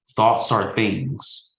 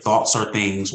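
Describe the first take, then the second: First: "Thoughts are things" very slow, each word weighted; drawn-out preacher emphasis; slow emphatic. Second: Said in the usual way. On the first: Shown as a demonstration.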